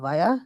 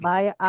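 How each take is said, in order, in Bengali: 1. শব্দ দুটো জুড়ে একটা শব্দের মতো বলা হয়। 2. শব্দ দুটো আলাদাভাবে বলা হয়। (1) "বায়া বলতে পারেন" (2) "বাই আ না বলে"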